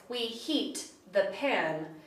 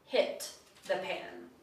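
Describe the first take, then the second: First: Slow, softer "We heat the pan," with a long ee in "heat". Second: Low, soft, slow "hit the pan." with a short clipped i in "hit". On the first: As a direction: hold the vowel in "heat". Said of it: "interpret the sentence". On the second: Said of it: "and not that they". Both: Shown as a demonstration.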